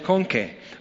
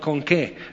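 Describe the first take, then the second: First: The word que is unstressed and runs on. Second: The word que is stressed, like a question. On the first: It introduces a challenge, not a real question. The speaker calls it right. "No, es con qué" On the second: It asks with what something is done. The speaker calls it wrong. "con acento que es una pregunta"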